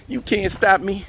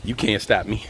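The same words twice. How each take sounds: First: Playful boast pitched up high; high-pitched take. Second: Low, softer playful boast; low-pitched take. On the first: Vlogger repeats a playful boast on a walk, high-pitched. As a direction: lift the whole boast high in your range. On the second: Vlogger playfully boasting on a morning walk, low-pitched. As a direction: say it down low in your range. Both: Pretend.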